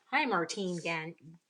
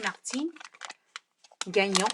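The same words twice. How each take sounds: First: Said in the usual way. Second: Martine Gagnon said the French way; French accent. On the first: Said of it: "I should not just say it". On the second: Shown as a demonstration. Insisting the name should have an accent, French accent. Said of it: "it should have an accent".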